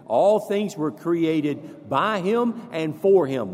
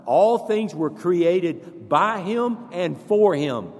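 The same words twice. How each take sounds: First: Slow, each word weighted; leading the congregation in unison recitation, slow and emphatic. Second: Slow and louder, building; repeating it louder with the congregation, slow and forceful; louder recitation. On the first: Slow, measured chant. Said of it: "Say that with me". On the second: Louder, slow recitation. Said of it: "One more time". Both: Shown as a demonstration.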